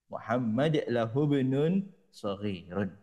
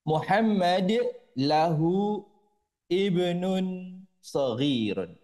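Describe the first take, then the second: First: Lahu runs straight into bnun without the i. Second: The i of ibnun is sounded separately. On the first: The speaker calls it right. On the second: The speaker calls it wrong.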